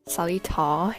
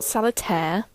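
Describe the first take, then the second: First: The name ends with a 'tar' sound. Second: The name ends with a 'tear' sound. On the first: The speaker calls it right. "The I is silent" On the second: The speaker calls it wrong. "Not Solitaire, Everybody always says tear"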